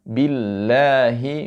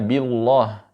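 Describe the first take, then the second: First: The 'l' in Allah is light and thin. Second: The 'l' in Allah is heavy and thick. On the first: The speaker calls it right. "di situ tipis karena sebelumnya harakat kasrah" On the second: The speaker calls it wrong. "jangan dibaca billah"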